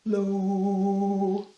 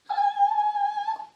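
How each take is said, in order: First: It is said in a very low voice. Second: It is said in a very high voice.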